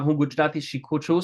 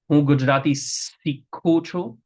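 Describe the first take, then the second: First: The last word begins with an sh sound. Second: The last word begins with an s sound.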